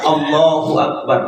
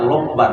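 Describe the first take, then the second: First: Every syllable of the phrase is said fully. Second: The first syllables are dropped, leaving it clipped. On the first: The speaker calls it right. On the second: The speaker calls it wrong.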